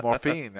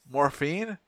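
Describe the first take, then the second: First: "Morphine" said evenly with a falling end; confirming. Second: "Morphine?" with a rising, questioning end. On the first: Nurse answering the patient's question about morphine, confirming. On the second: Patient checking the nurse's offer of morphine, questioning. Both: Retold or imitated.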